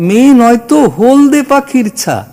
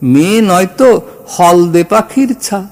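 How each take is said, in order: First: The first vowel of holde is a close o. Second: The first vowel of holde is an open aw. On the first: The speaker calls it right. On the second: The speaker calls it wrong.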